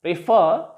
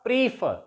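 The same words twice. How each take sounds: First: "prefer" with short pre-, long FER; preFER, rising on the stressed end; stress on last syllable. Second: "prefer" said as PREE-fer; long stressed first syllable in "prefer"; wrong stress on first syllable. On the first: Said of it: "stress is on the last syllable". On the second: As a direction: hit PRE, drop FER in "prefer". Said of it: "not prefer". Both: Shown as a demonstration.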